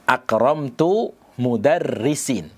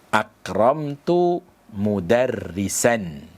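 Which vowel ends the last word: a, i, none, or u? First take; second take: i; a. First: The last word ends with a final i-sound. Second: The last word ends with a final a-sound. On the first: The speaker calls it wrong. "Dengan mengkasrah mudarrisin" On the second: The speaker calls it right. "Dia harus dibaca nasab"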